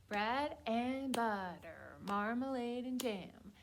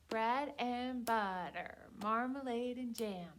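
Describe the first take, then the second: No difference in how they are said.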